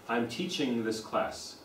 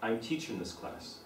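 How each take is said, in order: First: Teaching ends with a full ng sound. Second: Teaching ends with a plain n sound. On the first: It sounds educated and standard. "teaching ng has a G on the end" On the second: It sounds working class and ordinary. "You drop the G"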